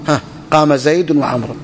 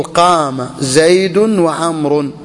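First: Said in the usual way. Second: Very slow, each word drawn out for dictation; slow example. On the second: Shown as a demonstration. Teacher dictating an example sentence to students, very slowly. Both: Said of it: "تقول".

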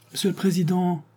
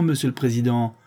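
First: Cries out. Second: Said in the usual way. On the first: Acted. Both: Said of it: "s'écria Séraphin".

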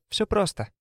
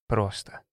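First: Said in the usual way. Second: Flat, low, quiet echo of Просто; mechanical echo. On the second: A narrator's reading. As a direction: repeat Просто mechanically, dazed. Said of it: "механически повторил он".

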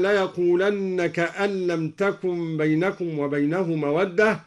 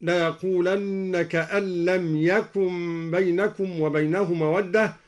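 First: Said in the usual way. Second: يكن with a y sound where تكن has a t; masculine verb. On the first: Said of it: "قرأ الدوري بالتذكير". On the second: Shown as a demonstration. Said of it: "بالتذكير هكذا".

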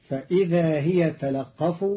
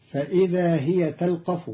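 First: تلقف as talaqqaf, lam voweled, qaf doubled; Qalun's reading. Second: تلقف as talqaf, still lam, light qaf; standard reading. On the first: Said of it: "بتحريك اللام وتشديد القاف". (تحريك اللام وتشديد القاف) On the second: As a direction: say تلقف with no doubling. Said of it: "قرأ قالون كلمة". (تلقف بإسكان اللام) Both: Shown as a demonstration.

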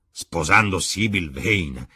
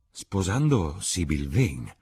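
First: Slow, louder "Sybil" exclaimed in disbelief; astonished exclamation. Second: Slow, steady "Sposando Sybil Vane" stated flatly; calm Dorian. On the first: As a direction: repeat it back, stunned and perplexed. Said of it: "esclamò Lord Henry ... perplesso e meravigliato". (Lord Henry ripete "Sposando Sybil Vane!" stupito e più forte) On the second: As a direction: announce it as settled fact. Dorian answers calmly. (Dorian dice "Sposando Sybil Vane" lento e pacato) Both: Acted.

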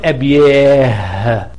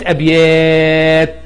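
First: أبياه ending in a breathed H, no T; final h instead of t. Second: أبيات with a clear T at the end; final t sounded. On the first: Teacher testing whether the word allows ha, wrong H ending on أبياه. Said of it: "ما أقدرش أقول أبياه". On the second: Teacher showing students the open ta, final T sounded in أبيات. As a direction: stretch أبيات and release the final T. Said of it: "إنها مكتوبة بتاء مفتوحة". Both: Shown as a demonstration.

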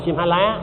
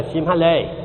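First: Simhala ending in an open "la"; non-Sri Lankan pronunciation. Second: Simhale ending in "le"; Sri Lankan pronunciation. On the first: Teacher showing how Sri Lankans don't say it, Simhala ending in "a". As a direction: say Simhala with a final "a" sound. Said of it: "người Tích Lan không đọc là Simhala". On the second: Teacher showing how Sri Lankans read it, Simhale ending in "e". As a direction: say Simhale with a final "e" sound. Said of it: "người Tích Lan đọc chữ này là". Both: Shown as a demonstration.

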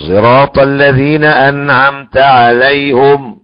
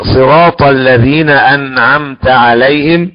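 First: Slow recitation voicing "صراط" like ziraat, damma on the h of "عليهم"; Hamza's reading. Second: Slow chant with "عليهم" as alayhim; sung, recite the verse with a clear sad in "صراط"; sung, Quran recitation. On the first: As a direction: chant "صراط" with a z-blended sad and "عليهم" as alayhum. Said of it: "حمزة كله". (قراءة حمزة بإشمام "صراط" وضم هاء "عليهم") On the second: Teacher recites next verse. (sung, ترتيل بالصاد وكسر هاء "عليهم") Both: Shown as a demonstration.

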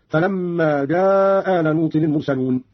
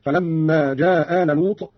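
First: جاء آل as a long-held "jaaa ala"; slow recitation with lengthened جاء; dropped hamza, prolonged. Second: جاء آل run together as "ja ala", short first vowel; slow recitation, جاء without its hamza; dropped hamza, short. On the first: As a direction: drop the hamza of جاء and stretch the vowel. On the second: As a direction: drop the glottal stop of جاء and keep it short. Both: Shown as a demonstration. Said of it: "بإسقاط الهمزة مع القصر والمد هكذا".

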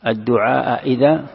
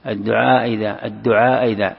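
First: Slow "الدعاء إذا" with two distinct glottal stops; both hamzas fully articulated. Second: "الدعاء إذا" with the second hamza melted towards a y; eased second hamza. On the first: Teacher contrasting two readings, "الدعاء إذا" with both hamzas fully sounded. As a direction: give the hamza of "إذا" its own full stop. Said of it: "بالتحقيق". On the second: Teacher contrasting two readings, "الدعاء إذا" with second hamza eased. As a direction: run "الدعاء" into "إذا", halfway between hamza and ya. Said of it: "ولك أن تقرأها بالتسهيل". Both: Shown as a demonstration.

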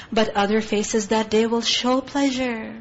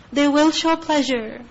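First: Said in the usual way. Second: Will lifted and leaned on; preacher pressing will in They will show pleasure; stress on will. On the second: Shown as a demonstration. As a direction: hit the word will in the repeat.

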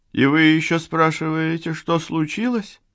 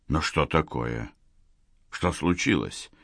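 First: Higher, incredulous woman's voice; indignant retort. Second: Softer, lower bewildered mumble; stunned mumble. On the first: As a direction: throw the question back at him, outraged. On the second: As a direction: mumble it, dumbfounded. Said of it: "бормотал ошеломлённый полковник". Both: Acted.

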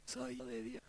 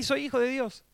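First: Feeble reply. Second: Said in the usual way. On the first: Shown as a demonstration. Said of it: "Así sa-, así sonó". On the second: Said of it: "Ahora sí".

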